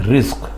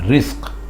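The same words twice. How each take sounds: Both takes have the same delivery.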